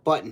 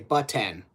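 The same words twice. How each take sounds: First: The word is said in a relaxed, ordinary way. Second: The word is said with over-careful enunciation. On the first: The speaker calls it right. "instead of button" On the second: The speaker calls it wrong. "with that enunciation"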